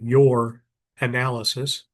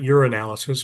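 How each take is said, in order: First: The phrase is said slowly. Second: The phrase is said quickly. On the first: The speaker calls it right. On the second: The speaker calls it wrong.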